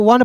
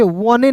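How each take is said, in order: First: "वन" ending on n, silent e; ONE read as "वन", nothing after the n; correct reading. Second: "वने" with the final e sounded; mispronounced ONE with an added "ne"; wrong reading. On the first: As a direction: say "वन" as one syllable. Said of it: "ओएनई को वन पढ़ते हैं". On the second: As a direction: say "वने" in two syllables, wa-ne. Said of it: "वने नहीं पढ़ेंगे". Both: Shown as a demonstration.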